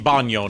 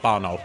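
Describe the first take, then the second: First: The middle consonant is an ny sound. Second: The middle consonant is a plain n sound. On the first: The speaker calls it right. "that would be Banyo" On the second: The speaker calls it wrong. "not Bano"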